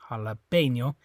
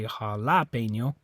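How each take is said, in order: First: The stress is on the third syllable. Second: The stress is on the second syllable. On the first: The speaker calls it right. "So it's this E" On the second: The speaker calls it wrong. "It's not that A. You don't say jalapeno"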